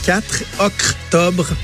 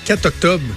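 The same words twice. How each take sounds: First: An extra R is added before octobre. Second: The R of quatre is dropped.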